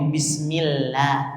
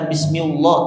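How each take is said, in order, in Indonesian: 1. Bunyi l-nya tipis dan ringan. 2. Bunyi l-nya tebal dan berat. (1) "karena dia dibaca ti, tipis" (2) "bukan bismillah"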